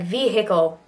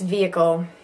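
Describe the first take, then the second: First: An H sound is pronounced in the middle. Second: No H sound is pronounced in the middle. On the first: The speaker calls it wrong. "Looks like vehicle" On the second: The speaker calls it right. "you can kind of pop up the H, but really it's vehicle"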